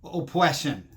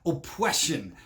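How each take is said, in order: First: Oppression said as opwession with a w; mocking opwession, w for r; says w for r. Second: Oppression said as opwression with a w; opwression, r turned to w; says w for r. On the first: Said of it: "She doesn't want to perpetuate". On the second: Retold or imitated. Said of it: "she's talking about".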